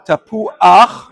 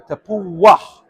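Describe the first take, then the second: First: A glottal break comes before the final ach. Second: A light w glide comes before the final ach. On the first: "they put in an Aleph" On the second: "it's as if there would be a Waw over there"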